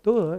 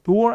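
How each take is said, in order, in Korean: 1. 마지막 r 소리는 빠져요. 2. 마지막 r 소리는 분명히 발음돼요. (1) "영국식은 받침에 오는 알을 안 하거든요" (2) "door 아니라"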